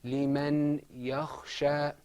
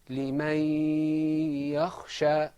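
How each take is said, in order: First: The n is heard separately before the y. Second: The n merges into one doubled y sound. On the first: This is ordinary speech outside recitation. "Outside of the Qur'an we would say" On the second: This is the recitation form with the rule applied. "the nun sakina in liman and the ya became one stressed letter"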